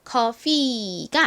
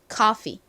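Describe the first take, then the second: First: The final vowel is drawn out long. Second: The final vowel is short and clipped. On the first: The speaker calls it wrong. "원래는 좀 긴 이 소리가 나는데 이 단어에서는 예외적으로 그렇게 길게 소리가 나지 않고요" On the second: The speaker calls it right. "그냥 이로 소리가 납니다"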